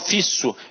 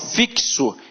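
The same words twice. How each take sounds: First: The x is not pronounced as ks. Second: The x is pronounced as ks. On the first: The speaker calls it wrong. "eu não falo fixo" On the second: The speaker calls it right. "o X aqui tem som de K S"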